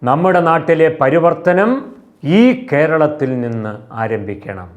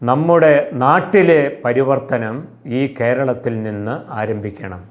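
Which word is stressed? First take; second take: പരിവർത്തനം; നമ്മുടെ. First: The emphasis falls on the word പരിവർത്തനം. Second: The emphasis falls on the word നമ്മുടെ.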